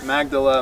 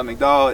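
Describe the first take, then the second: First: Magdala as MAG-duh-luh, English vowels. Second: Magdala as mik-DAHL, stress at the end; original Magdala. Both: Shown as a demonstration.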